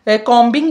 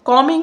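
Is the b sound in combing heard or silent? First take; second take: heard; silent. First: The b sound is pronounced after the m. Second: The b sound is left out after the m. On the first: The speaker calls it wrong. "इसको आपने कॉम्बिंग नहीं कहना" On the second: The speaker calls it right. "ये जो बी है ये silent होता है"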